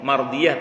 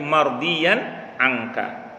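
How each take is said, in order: First: Said in the usual way. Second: "mardiyan angka" slowly, ending in -n; corrected wording. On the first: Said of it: "bukan pakai mardiyah". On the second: Shown as a demonstration. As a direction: spell out "mardiyan angka" with a drawn-out -yan. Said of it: "tapi mardiyan angka".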